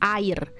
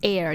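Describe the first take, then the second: First: It is said with Indonesian pronunciation. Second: It sounds like the English word air. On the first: The speaker calls it right. "You pronounce it as air" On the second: The speaker calls it wrong. "you don't pronounce it as air"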